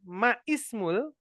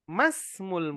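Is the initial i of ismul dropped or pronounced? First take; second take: pronounced; dropped. First: The i of ismul is pronounced separately. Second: The i is dropped and words run together. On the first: The speaker calls it wrong. "bukan ma ismul" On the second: The speaker calls it right. "langsung saja"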